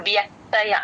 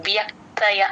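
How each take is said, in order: Both takes have the same delivery.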